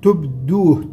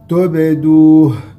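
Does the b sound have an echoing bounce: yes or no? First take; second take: no; yes. First: The b is said flat without a bounce. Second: The b is said with a slight echoing bounce. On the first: The speaker calls it wrong. "لا نقلقل الباء، فنقول تبدوه، تبدوه هذا خطأ" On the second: The speaker calls it right. "والصحيح أن نقلقل الباء فنقول تبدوه"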